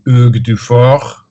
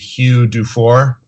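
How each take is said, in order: First: The name is pronounced the French way. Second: The name is pronounced the English way.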